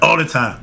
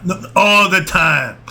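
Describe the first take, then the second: First: Said in the usual way. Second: Slower and firmer on all the time; insistent correction. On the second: Shown as a demonstration. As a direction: lean on "all" to correct them. Correcting a listener's mishearing.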